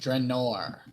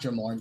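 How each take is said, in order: First: The last syllable begins with an n sound. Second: The last syllable begins with an m sound. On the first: The speaker calls it right. "Draenor. in O R" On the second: The speaker calls it wrong. "not Dramor"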